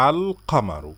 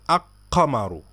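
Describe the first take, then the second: First: "আল কামারু" with a clear, held l before the k; article l pronounced. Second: "আক কামারু" with the l wrongly merged into a doubled k; mispronounced article. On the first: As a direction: sound the l fully in "আল কামারু". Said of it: "বলি কি আল কামারু". ("আল কামারু", লাম স্পষ্ট উচ্চারণ করে) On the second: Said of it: "এটা বলি না যে". ("আক কামারু", ল বাদ দিয়ে ভুল উচ্চারণ) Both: Shown as a demonstration.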